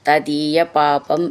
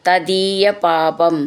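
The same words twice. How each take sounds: The two takes are said the same way.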